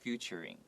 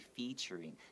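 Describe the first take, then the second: First: The first syllable sounds like 'few', as in future. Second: The first syllable sounds like 'feet', with a long ee. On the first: The speaker calls it wrong. "他们会把这个字念成 future ... is just a bad habit" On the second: The speaker calls it right. "but it should be featuring"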